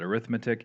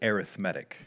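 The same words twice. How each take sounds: First: The stress is on the second syllable. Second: The stress is on the third syllable. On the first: The word is used as a noun. "if you're using it as a noun, you pronounce it" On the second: The word is used as an adjective. "If you're using it as an adjective, you pronounce it"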